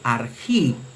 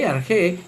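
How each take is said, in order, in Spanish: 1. La vocal final se pronuncia como 'ee'. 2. La vocal final se pronuncia como 'e'. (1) "pero en la pronunciación reucliniana se lee argi" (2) "Se lee arge en la pronunciación erasmiana"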